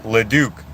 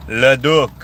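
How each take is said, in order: First: Said in the usual way. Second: Leduc said louder as /lədu/, final k dropped, French style. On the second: Shown as a demonstration. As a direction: say Leduc the French way, loud and a bit higher. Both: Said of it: "lots of French-sounding names".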